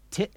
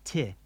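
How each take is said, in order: First: "Ti" chopped short by a glottal stop; abrupt cutoff. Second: "Ti" with the vowel left to fade; open ending. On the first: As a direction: cut the vowel of "Ti" dead. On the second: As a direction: let "Ti" run on without a stop. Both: Shown as a demonstration. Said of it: "Repeat after me".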